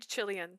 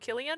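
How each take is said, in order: First: The name begins with a CH sound. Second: The name begins with a K sound. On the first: "She used to say Chillian" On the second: "I was like, oh, Killian"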